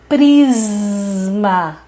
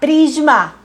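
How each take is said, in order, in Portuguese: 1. O s soa como um sibilo claro. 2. O s soa como um chiado sonoro. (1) "Não era isso. Era um prisma" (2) "eu ouvia a professora de desenho dizer prisma"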